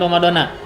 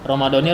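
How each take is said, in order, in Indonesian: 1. Kata itu berakhir dengan vokal 'ah'. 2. Kata itu berakhir dengan vokal 'ee'.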